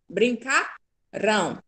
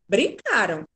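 First: The stress is on the last syllable. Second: The stress is on the second syllable. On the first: The action will happen in the future. "Futuro. Tem o A, o tio é futuro" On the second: The action happened in the past. "é pretérito, é passado"

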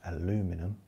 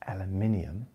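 First: The word is said the American way. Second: The word is said the British way. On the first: "in America" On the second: "in England"

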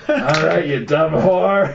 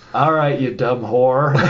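First: It is said in a put-on character voice. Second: It is said in the speaker's normal voice.

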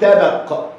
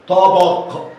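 First: The first consonant is a light plain t. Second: The first consonant is a heavy emphatic t. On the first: The speaker calls it wrong. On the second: The speaker calls it right.

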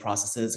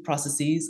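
First: The last syllable has a short 'i' sound, like 'siz'. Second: The last syllable has a long 'ee' sound, like 'seez'. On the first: This is the form the speaker personally prefers. "although I personally will say processes because I think that's the, you know, how it should be" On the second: This is the form most Americans use. "Americans say this usually"

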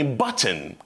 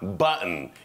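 First: The t sound is clearly pronounced. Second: The t sound is swallowed in the throat. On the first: "не button" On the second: "они говорят"

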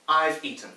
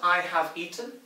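First: The word have is contracted to a v sound. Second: The word have is said in full. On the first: It sounds natural and everyday. The speaker calls it right. "but I've eaten. And that's good" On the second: It sounds very formal and old-fashioned. The speaker calls it wrong. "not I have eaten"

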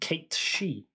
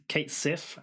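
First: The second word is said as she. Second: The second word is said as sif. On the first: This follows the name's old Gaelic origin. The speaker calls it right. "if you were to pronounce it right, ... it's pronounced Kate She" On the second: This is the common way people say the name. The speaker calls it wrong. "as we all call him. That's not actually his name"

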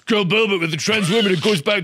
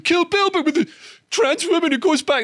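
First: The voice is at its normal pitch. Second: The voice is put on and high-pitched. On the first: The speaker calls it right. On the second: The speaker calls it wrong.

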